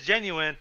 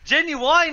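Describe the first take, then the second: First: The last syllable sounds like 'in'. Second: The last syllable sounds like 'wine'. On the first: This is the standard word. The speaker calls it right. "proper pronunciation is genuine" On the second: This is a singer's name. The speaker calls it wrong. "Genuine is a fucking singer"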